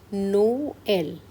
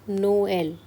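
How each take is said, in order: First: "Noel" said slowly as "no-el", each vowel sounded separately; vowels apart. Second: "Noel" said again at normal speed, still "no-el" with two vowels; quick repeat. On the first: Teacher to students, slowly splitting "Noel" into two vowels. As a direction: stretch "Noel" so both vowels are heard. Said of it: "we have to pronounce both the vowels individually". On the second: Teacher repeating "Noel" for students at normal speed. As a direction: repeat "Noel" briskly, both vowels kept. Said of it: "pronounce both the vowels individually". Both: Shown as a demonstration.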